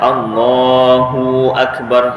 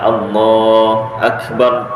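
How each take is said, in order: First: The hu syllable is drawn out long. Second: The hu syllable is dropped entirely. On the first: "Ada pula hu-nya terpanjang" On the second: "hu-nya tak ada"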